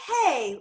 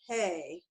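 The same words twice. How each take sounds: First: It sounds warm and inviting. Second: It sounds cold and unhappy.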